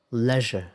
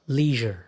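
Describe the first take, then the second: First: Leisure with a short "e", like pleasure; British pronunciation. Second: Leisure with a long "ee"; American pronunciation. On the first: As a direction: say leisure as "LEZH-uh". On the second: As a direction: say leisure as "LEE-zher". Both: Shown as a demonstration. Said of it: "Sounds like completely different words".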